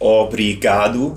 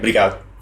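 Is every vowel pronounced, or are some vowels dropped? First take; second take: all pronounced; vowels dropped. First: Every vowel in the word is clearly pronounced. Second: The first and last vowels are dropped. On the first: "pronouncing every single letter" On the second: "there's no vowel in the beginning or vowel at the end"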